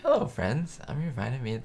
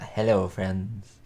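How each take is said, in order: First: Lucy's TV pitch. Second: Said in the usual way. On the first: Retold or imitated. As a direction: chirp it like a commercial host. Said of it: "There we go". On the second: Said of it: "Probably forgot the".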